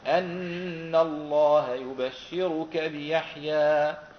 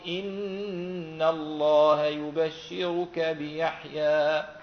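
First: The first word begins with an 'a' vowel. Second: The first word begins with an 'i' vowel. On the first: "والباقون سيقرؤون إيش؟" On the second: "هم يقرؤون بكسر هذه الهمزة"

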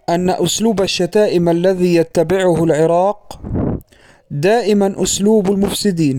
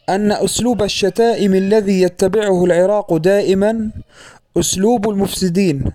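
First: There is a pause right after العراق. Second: There is a pause right after دائما. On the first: The word دائما is tied to what comes after it. The speaker calls it wrong. "فوقف عند كلمة العراق ثم استأنف الكلام" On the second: The word دائما is tied to what comes before it. The speaker calls it right. "فيقف عند كلمة دائما"

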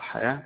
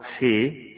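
First: The vowel is a fully open a. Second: The vowel is tilted strongly toward e.

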